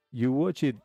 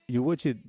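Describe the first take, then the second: No difference in how they are said.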